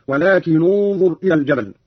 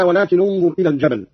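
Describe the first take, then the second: First: ولكن ending in "nu" into انظر; damma on nun. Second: Said in the usual way. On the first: Shown as a demonstration. Teacher shows Qalun's reading, ولكن said "walakinu" before انظر. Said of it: "نظرا لضم الثاني وهو الظاء هكذا". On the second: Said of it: "قرأ قالون بضم أولى الساكنين".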